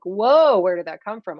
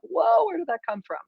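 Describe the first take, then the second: First: Startled at your own outburst, lightly imitated; a touch of bewildered whoa; mild mock surprise. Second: High, put-on parent, startled; mock parent voice. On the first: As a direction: kid caught off guard by their own feelings, mild surprise. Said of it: "you're like". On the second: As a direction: imitate a parent taken aback. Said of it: "your parents are like".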